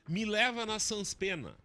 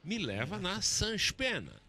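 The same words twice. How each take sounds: First: It is said in a gaúcho missionary accent. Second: It is said in a carioca accent.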